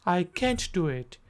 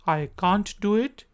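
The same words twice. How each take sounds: First: Can't as kent, American accent. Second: Can't as cahnt, British accent. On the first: Teacher contrasting American accent. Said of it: "American accent". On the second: Teacher contrasting British accent. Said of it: "British accent". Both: Shown as a demonstration.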